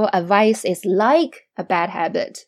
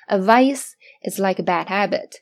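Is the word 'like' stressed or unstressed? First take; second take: stressed; unstressed. First: The word 'like' is said strongly, with stress. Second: The word 'like' is said weakly, without stress. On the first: The speaker calls it wrong. "我们不说a vice is like a bad habit，如果你这样读上去了，整体的语调就被破坏了" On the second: The speaker calls it right. "所以在这里like 也是不中毒的哟"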